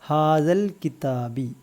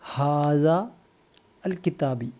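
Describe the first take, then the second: First: The words are run together into one linked phrase. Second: The words are said separately, each on its own.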